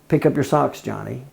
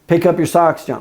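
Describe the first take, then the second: First: It is said at a normal pitch. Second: It is said at a very high pitch.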